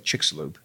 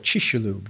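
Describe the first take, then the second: First: The x is said without a 'sh' sound. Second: The x is said with a 'sh' sound. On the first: This is how most Western speakers say it. "Most Westerners say Chicxulub" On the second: This is how Mayan speakers say it. "The Mayans would make it an SH"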